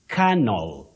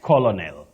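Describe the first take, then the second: First: The word is not pronounced the way it is spelled. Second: The word is pronounced the way it is spelled. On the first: The speaker calls it right. "You say colonel" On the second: The speaker calls it wrong.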